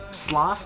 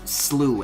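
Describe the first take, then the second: First: The word rhymes with cough. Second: The word rhymes with through. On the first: "like cough" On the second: "as in through"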